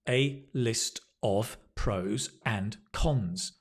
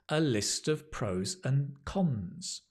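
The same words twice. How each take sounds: First: The words are said separately without linking. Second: The words run together with smooth linking. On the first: The speaker calls it wrong. "if you were to just read this off the paper, Not very natural" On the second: The speaker calls it right. "what she says is this"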